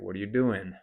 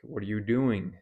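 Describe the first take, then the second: First: The final G of doing is dropped. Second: The final G of doing is pronounced. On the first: "You could just say" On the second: "if you were to say"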